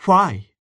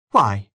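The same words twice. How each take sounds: First: Louder, higher, pressing why; insistent repeat. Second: Said in the usual way. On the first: A narrator's reading. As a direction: demand it again, harder. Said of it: "repeated Miss Ivors". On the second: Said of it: "asked Miss Ivors".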